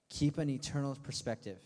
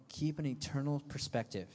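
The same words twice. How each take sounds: The two takes are said the same way.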